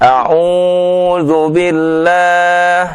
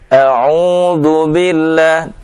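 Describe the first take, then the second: First: The long vowel is stretched out much too long. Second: The long vowel is held for a normal length. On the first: The speaker calls it wrong. "itu melebihi dari dua dua harokat" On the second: The speaker calls it right. "tidak dipanjangkan dari dua harokat"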